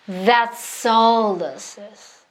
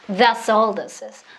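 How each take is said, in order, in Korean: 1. 천천히 말하고 있어요. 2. 훨씬 더 빠르게 말하고 있어요. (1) "슬로우에서 이걸 연습 많이 하시라는 거예요" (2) "조금 더 빠르게"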